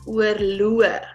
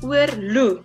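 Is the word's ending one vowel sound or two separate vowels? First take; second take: two vowels; one vowel. First: The ending has two separate vowel sounds. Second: The ending is a single oo vowel. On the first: The speaker calls it right. "that is not the word, it's oorloo" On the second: The speaker calls it wrong. "If it was just the word without the dots, ... it would have been oorloo. Because the O and the E is a oo"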